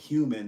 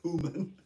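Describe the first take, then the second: First: The word is pronounced in the ordinary way. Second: The word is pronounced in an odd, distorted way. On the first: The speaker calls it right. "instead of saying human" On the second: The speaker calls it wrong. "they don't even pronounce the words correctly"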